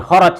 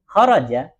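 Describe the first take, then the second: First: "kharaj" cut off on the j, no final vowel; wrong sukun ending. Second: "Kharaja" with the final a sounded; voweled ending. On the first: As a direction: drop the last a: "kharaj". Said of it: "Nggak boleh kharaj". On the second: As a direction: finish "Kharaja" on an open a. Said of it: "itu nggak ada". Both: Shown as a demonstration.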